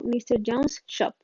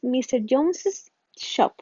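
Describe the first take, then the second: First: No extra syllable follows 'Jones'. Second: An extra 'iz' syllable follows 'Jones'. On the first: "sin la S final" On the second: "una forma de hacerlo es mister Jones's Shop"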